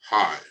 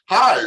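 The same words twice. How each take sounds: First: The greeting sounds upset and unhappy. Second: The greeting sounds excited and happy. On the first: The visitor is not welcome. The speaker calls it wrong. "really upset" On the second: The visitor is warmly welcome. The speaker calls it right. "like really excited"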